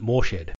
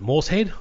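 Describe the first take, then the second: First: "Morshed" said as Mor plus shed; "Morshed" with s and h run together as sh; pronunciation MOR-shed. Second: "Morsehead" said as Morse plus head; "Morsehead" with a separate s and h; pronunciation MORSE-head. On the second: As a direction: say "Morsehead" split as MORSE-HEAD, s sound before head. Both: Shown as a demonstration. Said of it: "no idea of the proper pronunciation".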